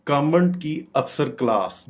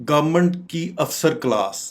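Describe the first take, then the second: Both takes have the same delivery.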